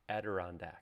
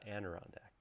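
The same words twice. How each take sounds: First: The word has only one n sound. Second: The word has an extra n sound. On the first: The speaker calls it right. "Adirondack, not" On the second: The speaker calls it wrong. "I've been saying Adirondacked my entire life"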